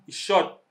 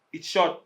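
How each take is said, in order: Both takes have the same delivery.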